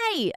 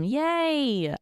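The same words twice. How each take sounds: First: It sounds warm and sincere. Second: It sounds flat and sarcastic.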